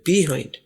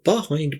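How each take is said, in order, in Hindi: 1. इस स्वर को 'ee' की आवाज़ में बोला जाता है। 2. इस स्वर को 'aa' जैसी आवाज़ में बोला जाता है। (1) "हम तो ऐसे पढ़ते हैं बिहाइंड, लेकिन ये बिहाइंड नहीं है" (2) "अंग्रेज जब बोलेगा तो इसको बिहाइंड बोलेगा"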